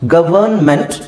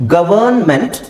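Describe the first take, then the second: No difference in how they are said.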